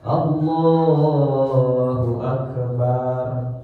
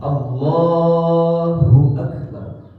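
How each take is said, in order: First: The final vowel of Akbar is drawn out. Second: The final vowel of Akbar is kept short. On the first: The speaker calls it wrong. "udah dua harokat, udah salah" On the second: The speaker calls it right.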